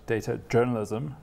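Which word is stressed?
journalism. The stress falls on the second word. It is mainly journalism that uses data. The speaker calls it right. "We call it data journalism"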